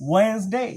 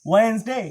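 No difference in how they are said.

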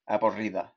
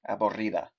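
No difference in how they are said.

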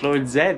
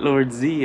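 First: The last word is pronounced 'zed'. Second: The last word is pronounced 'zee'. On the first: The speaker calls it right. "it's Lord Zed, like Canadians say" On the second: The speaker calls it wrong. "Not Lord Z"

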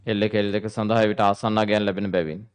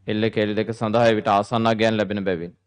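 Both takes have the same delivery.

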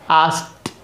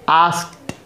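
Both takes have the same delivery.

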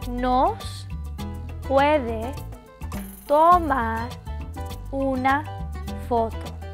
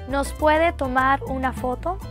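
First: It is said slowly. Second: It is said at normal speed.

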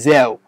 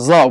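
First: The z sound is plain, not velarized. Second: The z sound is emphatic and velarized. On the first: "بدل من" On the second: "عندهم حتى الزين المفخمة مثلا يقولوا"

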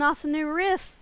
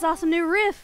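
First: It is said with less excitement and energy. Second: It is said with more excitement and energy. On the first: "I don't know if I need to be more excited or not" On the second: "the passion is where it got you. Let me try again"

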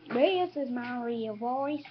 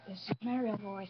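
First: It is said in a put-on, fake voice. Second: It is said in a natural, normal voice. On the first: The speaker calls it wrong. "don't talk in a fake voice like this" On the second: The speaker calls it right. "I'm just joking"

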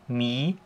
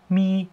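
First: The pitch rises toward the end. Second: The pitch stays high and level.

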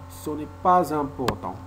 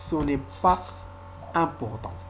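First: A z sound links pas to important. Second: Pas and important are said without linking. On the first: "On a fait la liaison entre S et I" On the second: "Mais on peut ne pas faire la liaison"

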